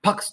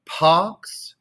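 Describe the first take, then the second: First: "Pax" chopped off short with an immediate X; a curt bad-example Pax, no held vowel; short pa, abrupt ks; wrong early X. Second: "pax" with a long held vowel, X last; paahh-ks, consonant delayed; late X on pax. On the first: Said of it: "do not do that". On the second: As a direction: sustain the a before closing on ks. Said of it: "careful where you're putting the, the X". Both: Shown as a demonstration.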